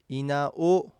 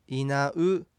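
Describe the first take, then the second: First: いなお ending in a clear "o" vowel; old-text pronunciation. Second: いなう ending in a Japanese "u"; pronounced as written. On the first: Teacher citing old documents' spelling, いなお with final "o". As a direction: end いなお on "o", as misheard from "u". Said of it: "古い文献では". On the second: Teacher giving today's pronunciation, いなう with final "u". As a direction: end いなう on a plain "u" vowel. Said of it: "書かれた文字のまま発音しても". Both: Shown as a demonstration.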